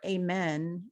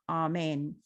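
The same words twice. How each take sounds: First: It is not said like ah-mein. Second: It is said like ah-mein. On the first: The speaker calls it wrong. "or Amen" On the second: The speaker calls it right. "It's Amen. It's kind of like A H M E I N"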